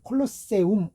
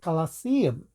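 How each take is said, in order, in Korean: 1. 첫 모음은 'oh'예요, 끝에 'oo'가 확실히 들려요. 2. 첫 모음은 'ah'예요, 끝에는 약한 모음이 들려요. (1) "유 소리를 우로 꼭 우리가 발음을 해주잖아요" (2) "이런 식으로 처리된 되게 됩니다"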